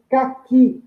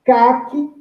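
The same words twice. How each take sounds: First: Caqui lento, com força no QUI final; tônica na última: caQUI. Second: Caqui com CA forte e qui fraco; tônica no CA. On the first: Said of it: "é a última sílaba tônica". (caqui oxítono, tônica no QUI) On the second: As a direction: acentue a primeira sílaba de Caqui. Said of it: "é o ca". (Caqui como paroxítona, tônica no CA) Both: Shown as a demonstration.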